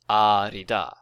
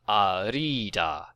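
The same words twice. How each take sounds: First: The i vowel is said short. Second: The i vowel is said long. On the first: The speaker calls it right. "That I is short" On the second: The speaker calls it wrong. "It's not arida"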